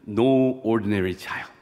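It is said with an American English accent. "너무 제가 미국 발음이라"

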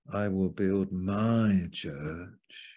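The stress is on the word my.

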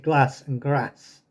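It is said in a northern English accent. This is the speaker's own way of speaking. "Northern. I say glass and grass"

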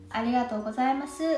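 The pitch rises at the end of the phrase. It is the local regional way of saying it.

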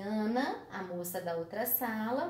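The phrase after Ana is set apart as an aside. The phrase explains who Ana is. "passaria a ser uma explicação para quem é Ana"

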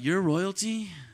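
It is said as a question, rising.

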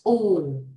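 The vowel sounds like a rounded 'oo'. "Cái này là đọc mà theo kiểu tiếng Anh châu Á nè"

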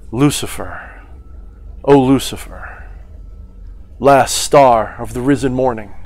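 It is said expressively with reverence. The words carry reverence, meaning and power. "They're performing at that point. They're imbuing their words with reverence"

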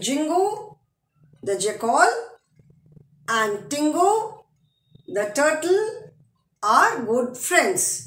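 There is a short pause after 'turtle'. "Since comma है, punctuation mark है, we have to pause for a second"

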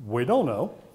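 It is said with a weak German accent. The speaker calls it wrong.

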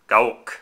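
The word is said with Japanese-style pronunciation. It follows the original pronunciation from its home country. "if you wish to be authentic to the way they pronounce it in Japan"

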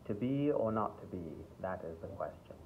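It is said in a mild British accent. "where it's not such a thick British accent, but it's sort of standard English"

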